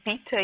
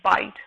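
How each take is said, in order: First: An extra vowel is sounded after the final T. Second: The word ends cleanly on the T sound. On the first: The speaker calls it wrong. "pronouncing the magic E" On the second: The speaker calls it right. "it should be bite"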